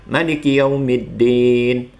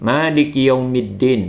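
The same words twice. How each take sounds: First: The vowel after the m is kept short. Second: The vowel after the m is held long. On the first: "tidak ada pemanjangan lafaz pada huruf mim" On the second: "maka dibaca panjang menjadi"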